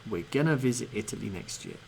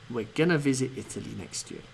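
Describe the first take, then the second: First: 'Going to' is reduced and run together as 'gonna'. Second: 'Going to' is reduced and run together as 'gonna'.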